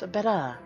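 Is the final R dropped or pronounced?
dropped. The final R is dropped, posh British style. The speaker calls it right. "the higher class Brits drop the R at the end of a word"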